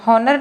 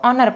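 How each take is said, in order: First: The word begins with an h sound. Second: The word begins with a vowel sound. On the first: The speaker calls it wrong. "हॉनर नहीं है" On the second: The speaker calls it right. "इसको ऑनर पढ़ेंगे"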